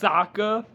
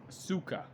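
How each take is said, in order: First: The first vowel is an open 'ah' sound. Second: The first vowel is a rounded 'oh' sound. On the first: This is how the name is said in the animated series. The speaker calls it right. "It's pronounced Sokka" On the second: This is how the movie says the name. The speaker calls it wrong. "They pronounce her name as so- Suka"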